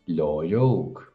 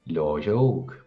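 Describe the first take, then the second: Both takes have the same delivery.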